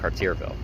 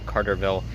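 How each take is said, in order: First: The middle of the name sounds like 'Cartier'. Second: The middle of the name sounds like 'Carter'. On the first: The speaker calls it right. "it's Cartierville" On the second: The speaker calls it wrong. "I was wrong on the pronunciation of the second half of its name. It's not Carterville"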